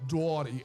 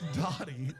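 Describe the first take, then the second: First: The name is said with a drawn-out 'aw' vowel. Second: The name is said with a plain vowel. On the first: The speaker calls it wrong. "Rosemary says Dottie" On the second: The speaker calls it right. "like a normal person"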